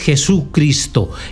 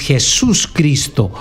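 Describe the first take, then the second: First: It is said as one word without the s. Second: It is said as two words with the s. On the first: A letter has been taken out of the name. The speaker calls it wrong. "no es Jesucristo" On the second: The name is complete. The speaker calls it right. "es Jesús Cristo"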